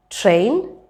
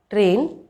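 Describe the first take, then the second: First: Train with T on the gum ridge; English T. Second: Train with retroflex, puffless T; hard-palate T. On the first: Teacher listing practice words, English T in train. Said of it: "that have the t sound in them". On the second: Teacher showing the wrong placement, retroflex T in train. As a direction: say train with the tongue back on the palate. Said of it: "It will sound like". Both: Shown as a demonstration.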